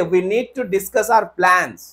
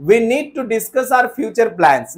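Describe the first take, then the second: First: Very slow model sentence; slow corrected example. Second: Very slow faulty sentence; slow wrong example. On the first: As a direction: dictate the fix slowly. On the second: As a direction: read the wrong line slowly. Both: Shown as a demonstration. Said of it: "नहीं sir, direct बोलिए".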